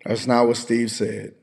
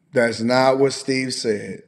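First: Said in the usual way. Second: Slow, with stress on what; firm correction that stresses what; slow insistent correction. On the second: Real, not acted. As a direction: lean on what and drag the whole sentence out.

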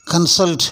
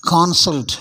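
First: கன்சல்ட் as kun-SULT, short first syllable; correct pronunciation. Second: கான்சல்ட் as KON-sult, open first syllable; wrong pronunciation. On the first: Teacher models the verb for learners, correctly pronounced கன்சல்ட். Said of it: "அப்படின்னு சொல்லணும்". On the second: Teacher shows learners the mistake, mispronounced கான்சல்ட். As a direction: lengthen KAAN in கான்சல்ட். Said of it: "அப்படின்னு சொல்லக்கூடாது". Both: Shown as a demonstration.

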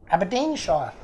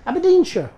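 First: Aberdeenshire ending in a full "shire"; trying the pronunciation. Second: Aberdeenshire ending in a short "shuh", higher and louder; trying another pronunciation. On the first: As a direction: say Aberdeenshire with the last part rhyming with "fire". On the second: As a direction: reduce the end of Aberdeenshire to "shuh". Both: Shown as a demonstration. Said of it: "place called Aberdeenshire".

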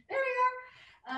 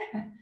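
First: High slow laughing. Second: Said in the usual way. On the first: Real, not acted. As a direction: say it through a laugh.

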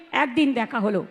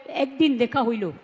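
First: Said in the usual way. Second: Put-on "হইল" said with the dialect's old "হই" form instead of "হলো"; Bangaon dialect. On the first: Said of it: "আমরা যেমন বলি". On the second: Shown as a demonstration. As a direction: stretch "হইল" like a Bangaon speaker. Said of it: "ওরা বলে".

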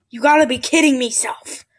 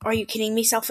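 First: Said in the usual way. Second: Quoting himself softly. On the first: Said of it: "I'll never say that again". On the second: Shown as a demonstration. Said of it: "I'll never say".

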